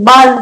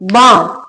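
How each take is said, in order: First: The L sound is pronounced in the word. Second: The L sound is left out of the word. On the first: The speaker calls it wrong. "एल का sound साथ में पढ़ लेते" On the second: The speaker calls it right. "एल silent रहता है"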